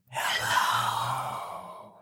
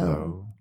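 First: It is whispered without voice. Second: It is spoken in a normal voice.

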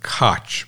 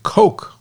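First: The name does not sound like 'Coke'. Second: The name sounds exactly like 'Coke'. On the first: This is the speaker's guess at the person's own pronunciation. "I'm going to pronounce it Koch" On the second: This is how a company with the same spelling says it. "they pronounce it Coke, like Coca-Cola"

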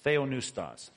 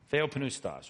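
First: The p sound before the n is silent. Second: The p sound before the n is pronounced.

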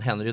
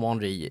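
First: The name is said with English pronunciation. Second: The name is said with French pronunciation. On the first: The speaker calls it wrong. "Säger man Henry, då är det ingen som vet vem det är" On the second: The speaker calls it right. "Henri låter som Henri i Frankrike"

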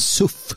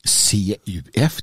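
First: It is pronounced as a single word. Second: It is spelled out as separate letters. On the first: The speaker calls it right. "det heter för fan SUF" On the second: The speaker calls it wrong. "varför i hela fridens namn använder han CUF?"

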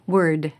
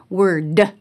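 First: The final D is released lightly and clearly. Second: The final D is hit hard and overstressed. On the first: The speaker calls it right. "You can hear that final D" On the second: The speaker calls it wrong. "but I try not to say"

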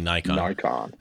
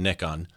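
First: The word is said in the American way. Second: The word is said in a non-American way. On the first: This is how people in the States say it. "as we say in the States, usually Nikon" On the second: This is how the guest says it. "you just mentioned Nikon"

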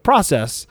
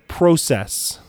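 First: The word is said the American way. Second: The word is said the Canadian way. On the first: "instead of process" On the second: "the main guy is Canadian, and he says process"

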